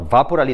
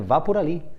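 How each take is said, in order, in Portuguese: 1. É dita com um tom firme, de comando. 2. É dita com um tom suave, sugestivo. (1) "Ou uma ordem, vá por ali, estou mandando" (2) "o conselho"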